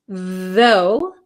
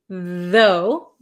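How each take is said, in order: No difference in how they are said.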